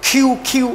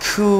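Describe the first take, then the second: First: কিউ with a hard, tight "kyu"; short, hard কিউ; mistaken Q. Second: কিউ eased out with a long oo; drawn-out, airy-onset কিউ; soft, gentle Q. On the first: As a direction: repeat কিউ briskly with a pressed k. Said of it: "this is not কিউ". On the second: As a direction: release the k of কিউ gently, hold the vowel. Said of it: "very softly and gently". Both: Shown as a demonstration.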